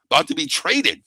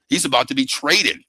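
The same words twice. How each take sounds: First: Traded pushed up and leaned on; stress on traded. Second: Said in the usual way. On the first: Real, not acted. Host repeating the trade news, traded stressed. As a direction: lean hard on traded.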